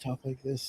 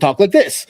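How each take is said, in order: First: The voice is weak, mumbled and unconfident. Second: The voice is clear, strong and confident. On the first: No one will take the speaker seriously. The speaker calls it wrong. "no one's going to fucking take you seriously" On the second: People will actually listen to the speaker. The speaker calls it right. "People will actually listen to you"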